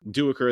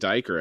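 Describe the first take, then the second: First: The name is said with the adopted pronunciation. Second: The name is said as 'Diker'. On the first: The speaker calls it right. "Duiker, that was another one" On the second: The speaker calls it wrong. "I was saying Diker, I think initially"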